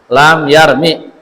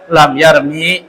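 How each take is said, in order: First: The final vowel is kept short. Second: The final vowel is drawn out long. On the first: The speaker calls it right. "Mi-nya pendek" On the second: The speaker calls it wrong. "Jangan dibaca lam yarmi. Salah"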